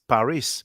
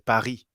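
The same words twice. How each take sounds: First: The final s is pronounced. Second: The final s is silent. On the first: This is how English speakers say it. "English speakers say Paris" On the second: This is how French speakers say it. "we say Paris. We don't pronounce the s"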